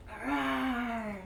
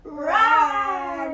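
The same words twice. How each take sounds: First: Quiet little tiger rawr; a small, gentle tiger growl; soft tiger roar. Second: Loud, high playful rawr; loud playful tiger roar for the kids; louder tiger roar. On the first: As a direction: play a tiny tiger roar. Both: Shown as a demonstration. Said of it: "Can you roar a little louder?".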